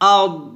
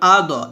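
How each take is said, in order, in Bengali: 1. শেষ ব্যঞ্জনটি মোটা ও ধরে রাখা, কোনো ঝাঁকি ছাড়া। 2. শেষ ব্যঞ্জনটি একটি প্রতিধ্বনিত ঝাঁকি দিয়ে শেষ হয়। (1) "আদ এভাবে মোটা হবে... কলকলা হামস কোনোটাই হবে না" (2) "দদে আমরা কলকল করি, হামজা দদ জবর আদ এভাবে বলি"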